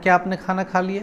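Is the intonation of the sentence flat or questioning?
flat. The pitch stays level with little movement. The speaker calls it wrong.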